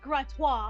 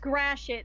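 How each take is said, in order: First: The name is said with a French pronunciation. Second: The name is said with an American pronunciation. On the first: This is how the name would be said in France. "It's pronounced Gratois" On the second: This is how locals where the road is say it. "here in Michigan, where the ro- road actually is, it's Gratiot"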